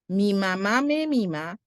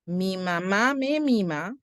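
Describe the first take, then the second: No difference in how they are said.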